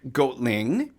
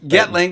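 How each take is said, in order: First: The first syllable has a long 'oh' vowel. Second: The first syllable has a short 'eh' vowel. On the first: The speaker calls it wrong. "am I saying that right?" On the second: The speaker calls it right. "we'll get the O out of there. We'll go with Getling"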